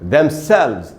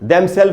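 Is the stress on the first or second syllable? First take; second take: second; first. First: The stress is on the second syllable. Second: The stress is on the first syllable. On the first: The speaker calls it right. "इसमें जो stress है वो second हिस्से में है" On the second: The speaker calls it wrong. "वैसे ही themselves नहीं बोलना चाहिए"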